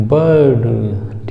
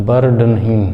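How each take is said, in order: First: बर्ड slow, first vowel stretched, no r; drawn-out vowel. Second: बर्ड with a clear rolled "r"; wrong pronunciation. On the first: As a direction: pull out the "ba" in बर्ड, then "d". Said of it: "बा को थोड़ा सा लंबा खींचेंगे". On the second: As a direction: sound the r in बर्ड. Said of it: "बर्ड नहीं दोस्तों". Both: Shown as a demonstration.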